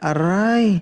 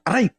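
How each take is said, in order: First: It is a soft, sweet Ilonggo-style cry of pain. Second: It is a sharp, plain Tagalog-style cry of pain. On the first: "Pag sa ilongga" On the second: "Pag sa Tagalog, pag nasasaktan"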